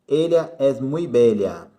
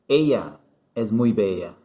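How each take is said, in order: First: The 'll' sound is clearly marked. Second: The 'll' sound is weak, almost like 'i'.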